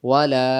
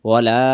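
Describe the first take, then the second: No difference in how they are said.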